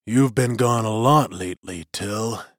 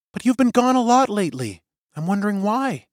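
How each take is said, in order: First: Lightly lowered menacing magician; a hint of a sinister old wizard; deep voice. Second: Higher, gently pressing woman's voice; worried young woman. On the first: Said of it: "A deep voice echoed". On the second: Suri presses Till, voiced high. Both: A narrator's reading.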